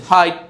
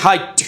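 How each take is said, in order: First: হাইট closing on a short, gentle T; unforced final T in হাইট; smooth final T. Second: হাইট ending in a hard puff of T; exploded final T in হাইট; over-released final T. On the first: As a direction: end হাইট without a puff. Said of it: "একদম smoothly". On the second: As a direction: force the last T of হাইট out as ঠ. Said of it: "এখন যদি বলেন হাইট". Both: Shown as a demonstration.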